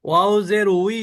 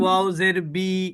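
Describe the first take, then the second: First: The syllable begins with a w sound. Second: The syllable begins with a b sound. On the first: The speaker calls it right. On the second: The speaker calls it wrong.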